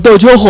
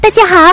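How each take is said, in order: First: The voice is deep and heavy. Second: The voice is thin and light.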